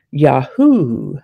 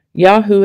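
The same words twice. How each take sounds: First: "Yahoo" in its second pronunciation, drawn out; alternative pronunciation of Yahoo. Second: "Yahoo" in the first of its two pronunciations. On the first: Host offering listeners the other way to say it, slow demonstration. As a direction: say "Yahoo" slowly as the other variant. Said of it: "can be pronounced Yahoo or Yahoo". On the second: Host giving listeners the word's first pronunciation, demonstrated plainly. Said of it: "can be pronounced". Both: Shown as a demonstration.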